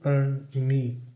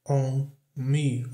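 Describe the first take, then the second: First: The vowel in 'on' sounds like 'ah'. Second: The vowel in 'on' sounds like 'oh'. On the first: "com som de A" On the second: "com som de O"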